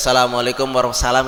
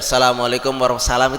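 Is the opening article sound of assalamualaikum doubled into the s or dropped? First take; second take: dropped; dropped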